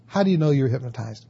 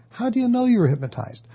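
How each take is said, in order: First: Fast, level, doubting challenge; skeptic. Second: Much higher, fast, eager question; a friend asking with wide-eyed curiosity; curious friend. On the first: Skeptic challenging the client, fast and doubting. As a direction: press the question like you don't buy it. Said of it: "the skeptic is gonna go". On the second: Friend quizzing the client about hypnosis, higher and eager. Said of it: "the person might ask your client". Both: Retold or imitated.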